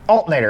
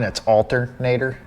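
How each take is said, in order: First: One R sound in the word is dropped. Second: Every R sound in the word is pronounced. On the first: "I get rid of the R" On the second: "if you look at the spelling, it's alternator"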